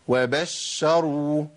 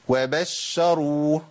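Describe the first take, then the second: Both takes have the same delivery.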